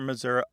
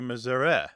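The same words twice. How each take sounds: First: The last vowel is an ee or ih sound. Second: The last vowel sounds like e in get. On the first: "some value of a short or a long I" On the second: "more like the E in get or met"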